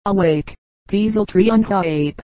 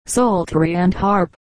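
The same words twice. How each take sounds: First: Peaseltry said as PEE-zel-tree instead of psaltery; the preacher mangles the word: peaseltry, pee-zel-tree; clergyman's mispronunciation. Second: Said in the usual way. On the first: Retold or imitated. Old clergyman preaching the verse, saying peaseltry as pee-zel-tree. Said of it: "The explanation of the words ... was as follows". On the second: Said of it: "preached a sermon on the verse of the psalm".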